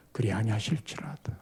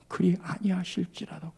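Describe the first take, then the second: First: 그리 아니하실지라도 whispered, low and unvoiced; whispered phrase. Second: Said in the usual way. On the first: Shown as a demonstration. Preacher whispers the scripture phrase before repeating it. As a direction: breathe the words reverently. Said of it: "그리 아니하실지라도 그 신앙이 아닌 거예요".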